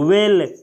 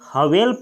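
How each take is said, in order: First: The word begins directly with a W sound. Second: The word begins with an audible H sound. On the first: The speaker calls it right. "Correct pronunciation" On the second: The speaker calls it wrong. "इसे कोई कोई हवेल पढ़ता है"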